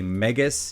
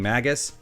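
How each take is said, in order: First: The first vowel is long, as in 'mate'. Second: The first vowel is short, as in 'mat'. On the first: The speaker calls it right. "this is a hard A, as in Mage" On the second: The speaker calls it wrong. "you want to go to that soft A"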